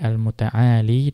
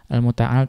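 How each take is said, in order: First: The word ends with a long i vowel. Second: The word ends on the consonant l. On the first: This is the reading of one particular reciter. "membacanya dengan ya, tetap adanya ya" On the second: This is the reading of the majority of reciters. "Al-Muta'al di situ dihapus ya-nya"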